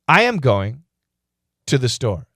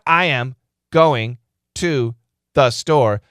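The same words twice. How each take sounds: First: The words are grouped into smooth, natural chunks. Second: The words are split into awkward, unnatural groups. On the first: The speaker calls it right. "That's perfect grouping" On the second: The speaker calls it wrong. "That's bad grouping"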